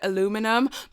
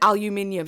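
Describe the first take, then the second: First: It is said with four syllables, American style. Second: It is said with five syllables, British style. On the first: "You guys in the U S call it aluminum" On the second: "over here we call it aluminium"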